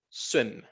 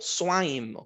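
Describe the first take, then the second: First: The vowel is short, as in swim. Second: The vowel is long, like the letter name. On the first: The speaker calls it right. "es un I corto" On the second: The speaker calls it wrong. "yo no digo"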